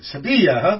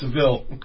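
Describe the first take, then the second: First: The name ends with a 'ya' sound. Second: The name ends with an 'l' sound. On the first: This is the local way of saying the name. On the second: This is how the speaker's own community says the name.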